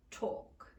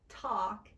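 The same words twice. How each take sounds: First: "talk" with a narrow, rounded British aw, like "tawk". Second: Said in the usual way. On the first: Shown as a demonstration. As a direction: round the lips tight on "talk". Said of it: "become law, talk". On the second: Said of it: "law, talk, and caution become".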